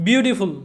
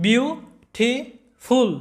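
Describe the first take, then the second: First: Said in the usual way. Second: "beautiful" slowly in three beats, বিউ, টি, ফুল; split into syllables. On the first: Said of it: "তিনটা syllable আছে". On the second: Shown as a demonstration. Teacher counting syllables for students, "beautiful" broken in three. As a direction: pause after each syllable of "beautiful". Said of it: "তিনবার উচ্চারণ করতে হয়".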